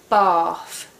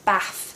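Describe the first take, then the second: First: The vowel is long, as in 'father'. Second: The vowel is short, as in 'cat'. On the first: "we make the long A sound R, so we say bath" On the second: "not bath like they say up the north"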